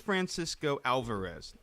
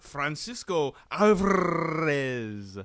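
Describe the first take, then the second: First: The name is said with an American English pronunciation. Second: The name is said with a Spanish pronunciation. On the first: The speaker calls it right. "his name is" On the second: The speaker calls it wrong.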